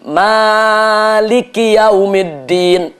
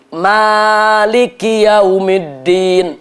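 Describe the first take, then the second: First: The vowel after the m is long. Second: The vowel after the m is long.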